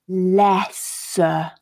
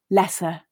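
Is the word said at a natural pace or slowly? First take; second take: slowly; natural pace. First: The word is said slowly with stretched sounds. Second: The word is said at a normal, natural speed. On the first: "We're going to really slow it down, but also exaggerate our mouth position" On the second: "we're going to read it at a more natural pace"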